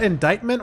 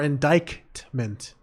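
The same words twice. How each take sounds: First: The middle K sound is left out. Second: The middle K sound is pronounced.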